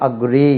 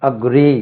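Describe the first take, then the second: No difference in how they are said.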